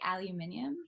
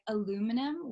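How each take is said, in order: First: It is said with a South African pronunciation. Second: It is said with an American pronunciation.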